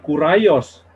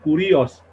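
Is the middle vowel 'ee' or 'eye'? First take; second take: eye; ee. First: The middle vowel sounds like 'eye'. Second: The middle vowel sounds like 'ee'. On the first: This is the English way of reading it. The speaker calls it wrong. "dia bukan kuraios" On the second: This is the original Greek way of reading it. The speaker calls it right. "tapi kurios"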